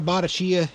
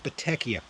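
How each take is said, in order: First: The name is said with a non-Italian pronunciation. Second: The name is said with an Italian pronunciation. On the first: The speaker calls it wrong. "It's not Batachia" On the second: The speaker calls it right. "This is how you say in Italia"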